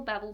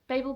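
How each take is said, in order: First: "Babel" with a short A, like babble; second pronunciation variant. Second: "Babel" with a long A, BAY-bel; first pronunciation variant. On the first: Vlogger weighing two pronunciations, babble version. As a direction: say "Babel" as BAB-ul. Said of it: "only ever seen the book as Babel". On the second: Vlogger weighing two pronunciations, BAY-bel version. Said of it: "now in my head it is Babel". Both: Shown as a demonstration.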